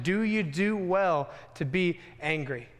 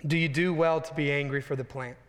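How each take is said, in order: First: Slow, weighty voice of God; a hint of a grave, patient God asking slowly; God's solemn question. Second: Said in the usual way. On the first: Preacher voices God's question to sulking Jonah, slow and weighty. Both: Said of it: "God once again asked the question".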